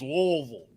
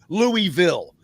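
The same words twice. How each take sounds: First: The syllables are slurred and clipped together. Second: Each syllable is clearly pronounced, ending in ville. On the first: This is how many locals casually say it. The speaker calls it wrong. "the people are lazy and they don't enunciate" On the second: The name comes from King Louis and village. The speaker calls it right. "King Louisville, short for village"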